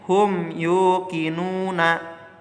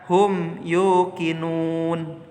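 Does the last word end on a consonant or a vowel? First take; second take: vowel; consonant. First: The last word ends with a short vowel. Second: The last word ends on a bare consonant. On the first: This is the form as written in the verse. "ayatnya tertulis" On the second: This is the form read when pausing at the end. "dibaca hum yukinun"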